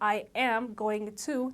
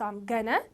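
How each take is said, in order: First: Each word is said fully and separately. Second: The words are contracted and run together. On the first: The speaker calls it wrong. "they don't say I am going to" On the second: The speaker calls it right. "they say I'm gonna"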